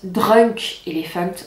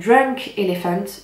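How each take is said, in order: First: It is said with a heavy French accent. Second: It is said without a heavy French accent.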